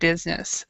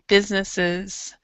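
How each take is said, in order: First: The final 'es' syllable is swallowed. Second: The final 'es' syllable is clearly pronounced. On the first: The speaker calls it wrong. "it's really easy to swallow this E S" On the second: The speaker calls it right. "be sure that you're pronouncing the whole word"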